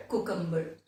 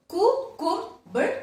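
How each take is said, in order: First: Said in the usual way. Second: "cucumber" slowly split as cu, cum, ber, high; syllable by syllable. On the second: Shown as a demonstration. Teacher repeats the third one, syllable by syllable. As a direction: sound out "cucumber" in three separate raised beats. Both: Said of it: "three syllable".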